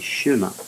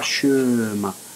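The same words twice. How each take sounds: First: The first vowel is a short schwa. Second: The first vowel is not a short schwa. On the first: The speaker calls it right. "on dit chemin" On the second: The speaker calls it wrong. "On ne dit pas chemin"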